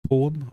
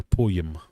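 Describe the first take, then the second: First: Said in the usual way. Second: Slow "poem" with a Y glide inside; poem drawn out as "poy-em"; Scottish "poem". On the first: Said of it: "How do you pronounce". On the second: Shown as a demonstration. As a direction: say "poem" as "po-yem". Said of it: "as if it's got a Y in it".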